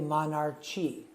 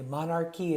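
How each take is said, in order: First: The middle sound is 'ch' as in church. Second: The middle sound is a hard 'k'. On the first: The speaker calls it wrong. "don't say monarchy" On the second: The speaker calls it right. "the C H sounds like a C K"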